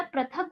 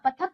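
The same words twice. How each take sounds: First: पृथक with ri after the p; पृथक with the r sound clearly in the first syllable; correct pronunciation. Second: पथक with plain 'pa', no r sound; पथक missing its ri vowel; wrong pronunciation. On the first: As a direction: say पृथक as pri-thak. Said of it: "होता है". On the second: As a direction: say पथक as pa-thak, dropping the ri. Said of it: "कुछ नहीं होता". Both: Shown as a demonstration.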